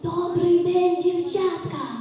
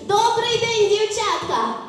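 First: The greeting is said softly and quietly. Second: The greeting is said at full, normal loudness.

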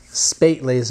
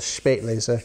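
First: The word begins with a plain s sound. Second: The word begins with an sh sound.

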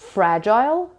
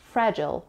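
First: It is said in a British accent. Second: It is said in an American accent. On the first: "which is British English" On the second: "In American English, it is pronounced like fragile"

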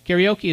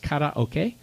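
First: It is said with an English-style pronunciation. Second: It is said with a Japanese-style pronunciation. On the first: The speaker calls it wrong. "Karaoke is a terrible pronunciation, but that's the common English pronunciation" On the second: The speaker calls it right. "It's karaoke, which means to sing out. It's Japanese"

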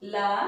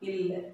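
First: The l sound is followed by a vowel. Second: A vowel comes before the l sound. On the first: "the last letter la" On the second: "we pronounced it by ill"

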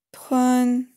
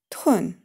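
First: The pitch stays high and level. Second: The pitch falls sharply from high. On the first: "Первый тон" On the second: "четвертый тон"

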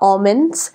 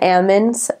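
First: It is said the speaker's usual everyday way. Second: It is said the way local farm workers say it.

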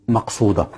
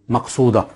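No difference in how they are said.

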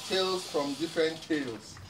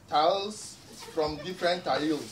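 First: The last word has an 'ay' vowel, like tails. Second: The last word has an 'eye' vowel, like tiles.

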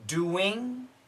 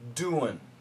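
First: The word ends with a full 'ing' sound. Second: The word ends with a reduced 'un' sound. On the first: "We can say ing" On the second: "and we can say un, which is basically a schwa sound"

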